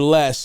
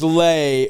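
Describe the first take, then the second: First: The vowel is short, with a final s. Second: The vowel is long, with no final s. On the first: "it's lay or less" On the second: "it's lay or less"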